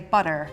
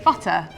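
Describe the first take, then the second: First: It is said in an American accent. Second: It is said in a British accent. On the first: "Americans would say butter" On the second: "we would say butter"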